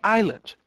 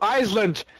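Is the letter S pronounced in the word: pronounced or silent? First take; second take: silent; pronounced. First: The S sound is silent in the word. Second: The S sound is pronounced in the word. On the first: The speaker calls it right. "Então a gente falaria Island" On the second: The speaker calls it wrong. "a gente não pronuncia o S do Island"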